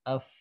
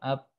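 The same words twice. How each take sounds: First: Teeth touch the lip, and air flows. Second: Both lips close, and no air flows. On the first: The speaker calls it right. "Yang betul" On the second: The speaker calls it wrong. "Kalau bibir atas yang nempel dan bawah, up. Ini yang salah"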